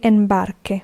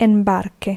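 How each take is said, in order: First: The u after the q is silent. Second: The u after the q is silent.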